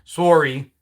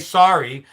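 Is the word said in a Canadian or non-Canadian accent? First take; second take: Canadian; non-Canadian. First: It is said in an imitated Canadian accent. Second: It is said in a plain, non-Canadian accent. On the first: "It's my Canadian accent" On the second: "you wouldn't say sorry"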